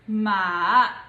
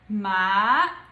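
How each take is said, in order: First: It is said in the third tone. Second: It is said in the second tone. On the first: "the third tone would be" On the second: "the second tone would be"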